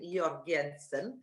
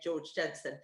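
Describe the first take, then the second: First: The name is said in a Danish accent. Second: The name is said in an English accent.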